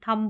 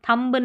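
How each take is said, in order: First: The final b sound is silent. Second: The final b sound is pronounced. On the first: The speaker calls it right. "बोलते हैं" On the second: The speaker calls it wrong. "नहीं बोलते"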